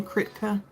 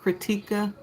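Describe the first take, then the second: First: Kritka said in two syllables, KRIT-ka; first try at the name. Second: Kritika said in three syllables, kri-TI-ka; corrected name. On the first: Streamer first reading a viewer's name as Kritka. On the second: Streamer correcting how she says the viewer's name. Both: Real, not acted.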